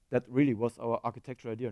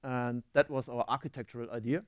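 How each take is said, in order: First: Really pushed, said a bit quicker; stress on really. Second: Said in the usual way. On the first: Shown as a demonstration. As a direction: lean on the word really.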